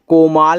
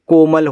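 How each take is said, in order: First: The second syllable has a long 'aa' vowel. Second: The second syllable has a short 'a' vowel. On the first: The speaker calls it wrong. "कोमाल नहीं" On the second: The speaker calls it right. "कोमल होता है"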